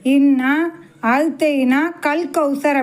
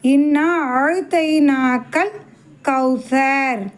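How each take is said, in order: First: The 'ka' is split off and joined to 'kawthar'. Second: The 'ka' stays joined to the word before it. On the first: It means given something like Kawthar. The speaker calls it wrong. "பெரும்பாலும் எப்படி சொல்லுவாங்க" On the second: It means given Kawthar itself. The speaker calls it right. "அப்போ எப்படி சொல்லணும்"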